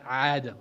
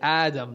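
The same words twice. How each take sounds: First: The name begins with a throaty ayn sound. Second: The name begins with a light glottal stop. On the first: The speaker calls it wrong. "there is no ayn in your name" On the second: The speaker calls it right. "It's alif, it's hamza alif, dal alif mim"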